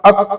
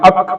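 No difference in how they are said.

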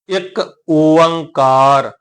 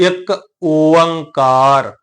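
Both takes have the same delivery.

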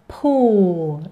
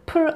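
First: The vowel is long and gliding. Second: The vowel is short and flat. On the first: The speaker calls it right. "포 이렇게요" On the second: The speaker calls it wrong. "풀 아니죠?"

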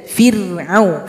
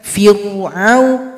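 First: The r is thin, lower lip relaxed. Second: The r is thick, lower lip raised. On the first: The speaker calls it right. "Bibir bawah tidak ikut ke atas" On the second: The speaker calls it wrong. "Jangan ... Itu kurang tepat"

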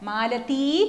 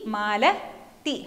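First: The final vowel is held long. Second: The final vowel is cut short. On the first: This is the basic form of the name. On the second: Someone is being addressed by name.

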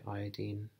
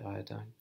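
First: The word is pronounced the non-American way. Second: The word is pronounced the American way. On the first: "I'll say iodine because I'm not American" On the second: "If you're American, you'll say iodine"

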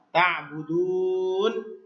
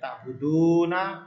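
First: The word ends on a consonant, vowel dropped. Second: The word ends with a final vowel sound. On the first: The reading stops at this word. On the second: The reading continues without stopping.

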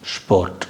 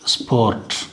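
First: The word begins with a sharp sh sound. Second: The word begins with a plain s sound. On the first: This is how it is said in German. "இங்கே வந்து இஸ் கிடையாது, இஷ்" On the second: This is how it is said in English. "இங்கிலீஷில் வந்து ஸ்போர்ட் வந்து ஸ்போர்ட் அப்படின்னு சொல்லுவோம்"

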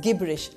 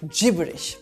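First: The word begins with a hard G sound. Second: The word begins with a soft J sound. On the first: The speaker calls it wrong. "Even though the word begins with a G, it is not pronounced as gibberish" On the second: The speaker calls it right. "but gibberish"

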